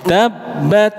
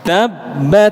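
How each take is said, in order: The two takes are said the same way.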